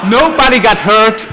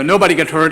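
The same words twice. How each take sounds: First: Laughing. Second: Said in the usual way. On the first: Real, not acted. Crash video just shown, audience laughing.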